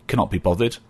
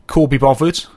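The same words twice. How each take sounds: First: Said in the usual way. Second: Black Country "Call be bothered", vowels broad and louder; Black Country "Call be bothered" said louder and higher; Black Country dialect. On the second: Shown as a demonstration.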